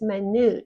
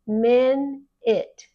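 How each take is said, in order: First: The second vowel sounds like a long U. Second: The second vowel sounds like a short I. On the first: It is an adjective meaning very small. "which means very, very, very, very small" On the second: It is the noun for sixty seconds. "We pronounce it like an I"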